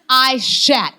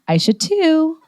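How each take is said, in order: First: The name ends in a short 't' sound. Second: The name ends with a separate 'too' syllable. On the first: This is how the name is really pronounced. The speaker calls it right. "the correct pronunciation of my full first name is Aishat" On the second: This is how the spelling looks when read literally. The speaker calls it wrong. "on paper it reads Aisha two"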